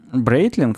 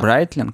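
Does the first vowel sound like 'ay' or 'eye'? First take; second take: ay; eye. First: The first vowel sounds like 'ay'. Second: The first vowel sounds like 'eye'.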